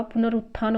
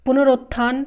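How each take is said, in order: First: पुनरुत्थान said as pu-na-RUT-thaan; short u after r in पुनरुत्थान; "rut" in the middle of पुनरुत्थान; correct form. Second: पुनरुत्थान said as pu-na-ROT-thaan; "rot" in the middle of पुनरुत्थान; wrong form. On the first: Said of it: "होता है". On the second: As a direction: put an "o" after r in पुनरुत्थान. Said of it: "नहीं होता". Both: Shown as a demonstration.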